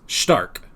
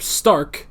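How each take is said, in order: First: The name is pronounced the German way. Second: The name is pronounced the English way. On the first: "all the names are more German" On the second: "instead of Stark"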